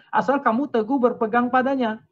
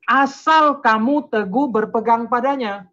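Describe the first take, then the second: First: Said in the usual way. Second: Loud, high, slow and deliberate; preacher hammering home a verse; emphatic scripture reading. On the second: Real, not acted. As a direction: proclaim each word of the condition. Drives home the verse's condition.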